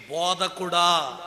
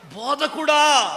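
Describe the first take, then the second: First: "బోధకుడా" said slowly, at normal loudness; "బోధకుడా" drawn out slowly as a gloss, calm; slow explanation. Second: "బోధకుడా" shouted high and slow; "బోధకుడా" shouted slowly and high in rapture; ecstatic shout. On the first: Shown as a demonstration. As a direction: spell out "బోధకుడా" slowly, calmly. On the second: Retold or imitated. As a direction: cry "బోధకుడా" out slowly with full joy. Mary crying out to Jesus.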